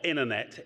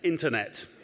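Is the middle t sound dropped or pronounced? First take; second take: dropped; pronounced. First: The middle t sound is dropped. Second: The middle t sound is clearly pronounced. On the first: The speaker calls it wrong. "Not internet" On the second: The speaker calls it right. "there are two T's in internet, and one of them's in the middle"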